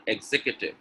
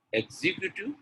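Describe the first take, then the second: First: EXECUTIVE with stressed "zek" and short "kyuh"; correct pronunciation. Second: EXECUTIVE with a long "kyoo-tiv"; wrong pronunciation. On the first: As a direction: say EXECUTIVE as "eg-ZEK-yuh-tiv". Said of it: "Executive is correct". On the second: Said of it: "The second one is correct". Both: Shown as a demonstration.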